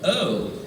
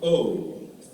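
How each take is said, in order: First: The vowel starts like 'uh' then glides to 'oo'. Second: The vowel starts like 'o' then glides to 'oo'. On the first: "It's not O and oo, it's a and oo" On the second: "in America, we say O and oo"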